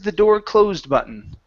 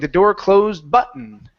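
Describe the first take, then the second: First: The pitch steps down and falls on button. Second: The word button is stressed and pitched high. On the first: The speaker calls it right. "we want to come down" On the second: The speaker calls it wrong. "you stressed button"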